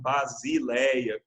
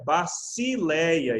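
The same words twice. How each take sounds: First: The middle consonant is a buzzing Z sound. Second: The middle consonant is a hissing S sound. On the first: The speaker calls it wrong. "e não basileia, como seria a nossa tendência de dizer usando as regras da língua portuguesa" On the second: The speaker calls it right. "então é basileia"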